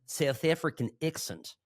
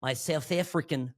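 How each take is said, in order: First: Light South African accent with flattened vowels; a quick try at a South African accent. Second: Said in the usual way. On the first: Shown as a demonstration. Host shows friend his South African accent, lightly. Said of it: "There's a little bit Australian there". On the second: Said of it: "I'm gonna try to do it".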